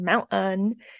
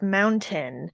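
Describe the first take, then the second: First: The middle T is a glottal stop. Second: The middle T is a full T.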